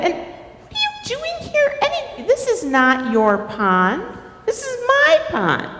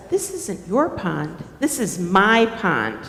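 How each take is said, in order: First: High-pitched territorial protest; indignant turtle. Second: Lightly voiced beaver, lower in pitch; possessive beaver. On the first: Acted. Turtle confronts Beaver over the pond, indignant. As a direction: pitch it up and stake a claim. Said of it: "Turtle's like". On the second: Beaver answers Turtle's claim to the pond, lightly possessive. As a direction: counter firmly with a lower voice. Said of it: "Beaver says".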